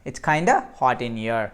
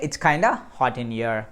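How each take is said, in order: The two takes are said the same way.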